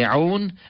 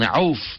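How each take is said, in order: First: The name ends with an n sound. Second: The name ends with an f sound. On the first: "some pronunciations say Aun" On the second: "and Auf"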